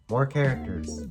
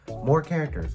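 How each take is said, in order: First: It is said in a flat, uninterested tone. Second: It is said with lively, excited enthusiasm. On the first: The speaker does not care about this feature. The speaker calls it wrong. "it came out as just more characters. I sound so uninterested" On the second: The speaker really wants this feature. The speaker calls it right. "I meant to say something along the lines of more characters, whoa"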